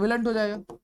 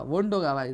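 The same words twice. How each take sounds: First: Willn't said as a made-up contraction, softer; wrong form. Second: Won't said low and firm as the answer; right form. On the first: Teacher to students, voicing the wrong form willn't. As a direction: offer willn't as the tempting wrong answer. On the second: Teacher to students, giving the correct form won't firmly. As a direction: settle it: won't, low and sure. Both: Shown as a demonstration. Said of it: "willn't हो जाएगा कि won't होगा?".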